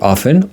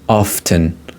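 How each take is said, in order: First: The T sound is left silent. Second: The T sound is clearly pronounced. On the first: "a T could be silent here" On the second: "you could pronounce T as well"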